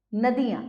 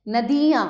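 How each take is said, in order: First: Said in the usual way. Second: नदियाँ with a long "dee"; louder नदियाँ, middle vowel held long; misspelt long i. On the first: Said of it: "सामने शुद्ध करके". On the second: Shown as a demonstration. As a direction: stretch नदियाँ to "na-DEE-yaan". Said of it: "अशुद्ध शब्द लिखे हुए".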